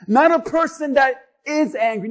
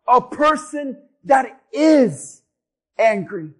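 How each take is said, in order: First: Said in the usual way. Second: IS drawn out slowly, then a pause before angry; stress on IS. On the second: Shown as a demonstration. Preacher defining an angry person for the church, stress on IS.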